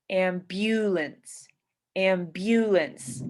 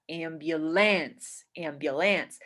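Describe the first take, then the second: First: Slow am-BYU-lance, middle syllable stretched; stress on middle syllable. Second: Am-byu-LANCE, full vowel on LANCE; stress on last syllable. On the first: Teacher shows one stress, slow am-BYU-lance. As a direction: lean on the BU of ambulance. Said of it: "We stress". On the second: Teacher shows another stress, am-byu-LANCE. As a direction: hit the LANCE of ambulance. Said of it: "some people will stress". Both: Shown as a demonstration.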